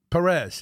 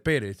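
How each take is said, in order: First: The name is said with an English accent. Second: The name is said with a Spanish accent.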